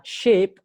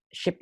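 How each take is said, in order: First: "sheep" with a stretched ee; long vowel. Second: "Ship" with a short lax i; quick short i in "Ship"; short vowel. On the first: Teacher explaining the animal word, "sheep" with a long ee. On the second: Teacher explaining the boat word, "Ship" with a short vowel. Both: Shown as a demonstration. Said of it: "Ini kadang-kadang orang banyak salah".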